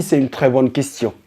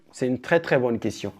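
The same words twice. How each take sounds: First: Said in the usual way. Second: "très bonne question" dropped much softer, nearly under the breath; hushed repeat. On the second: Shown as a demonstration. Repeats the phrase, trailing off. (à voix basse, en aparté)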